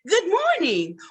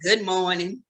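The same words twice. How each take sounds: First: It sounds warm and welcoming. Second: It sounds sour and unwelcoming. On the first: The greeter is glad to see you. The speaker calls it right. "You're supposed to be greeting people" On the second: The greeter is in a bad mood. The speaker calls it wrong. "apparently your morning ain't too good"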